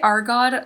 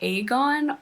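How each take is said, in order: First: The word is said with an R sound. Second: The word is said without an R sound. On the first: The speaker calls it wrong. "I say Argon like twenty billion times" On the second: The speaker calls it right. "There's no R"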